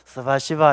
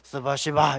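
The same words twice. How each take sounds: First: It is said warmly, with a smile. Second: It is said harshly, like a curse. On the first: The speaker calls it right. "이렇게 웃으면서 해야 되지" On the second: The speaker calls it wrong. "이러면 안 되는 겁니다"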